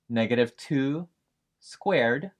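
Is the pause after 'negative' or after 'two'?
after two. Negative two is grouped, then a break before squared. The negative number is squared. "box A is pronounced"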